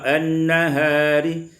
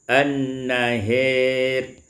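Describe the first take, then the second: First: The vowel after h is a plain open a. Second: The vowel after h leans toward e.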